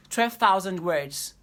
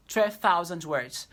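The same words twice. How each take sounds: The two takes are said the same way.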